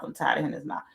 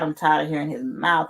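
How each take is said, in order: First: Mom's tired complaint, now dropped right down; softer weary repeat. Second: Said in the usual way. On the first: Retold or imitated. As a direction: repeat it softer, worn out and trailing. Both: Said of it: "my mom was like".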